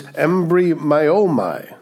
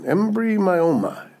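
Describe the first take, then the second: First: "embryomai" spelled out slowly, em-bry-o-mai, each syllable clear; Greek word said slowly. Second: "Embryomai" again, slow and higher, syllable by syllable; repeat for practice. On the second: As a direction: model "Embryomai" slowly and higher for the class to copy. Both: Shown as a demonstration. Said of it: "Practice that one on your own".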